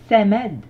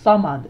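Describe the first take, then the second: First: The s sound is a plain, light s. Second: The s sound is a heavy, emphatic s. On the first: The speaker calls it wrong. "on n'a pas samed" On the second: The speaker calls it right. "Donc on a bien la lettre sad, qui est une lettre beaucoup plus emphatique"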